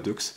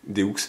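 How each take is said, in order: First: The word ends with a 'ks' sound. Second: The word ends on a vowel sound. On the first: The speaker calls it wrong. "pas Dux" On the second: The speaker calls it right. "Techniquement on dit euh, deux"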